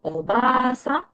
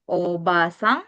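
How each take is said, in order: First: The vowel after 'b' is long. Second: The vowel after 'b' is short. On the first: It means grandmother. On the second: It means aunt.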